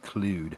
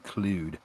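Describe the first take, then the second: First: It is said in the posh way. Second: It is said in the posh way.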